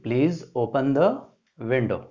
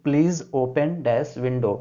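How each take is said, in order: First: "Please open the window" with a rise on "the"; slow, give the answer and lift "the"; teacher filling the blank; slow answer read. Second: "Please open dash window" read slowly; teacher dictating the blank. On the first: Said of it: "here will be". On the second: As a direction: read the exercise line with the gap spoken as "dash". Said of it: "understand what will be here". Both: Shown as a demonstration.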